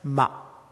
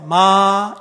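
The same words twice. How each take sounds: First: The syllable is cut off sharply at the end. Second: The pitch stays level and steady throughout. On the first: It means rice seedling. "마 딱 끊었어요" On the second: It means ghost. "똑같은 일정한 톤에서 마"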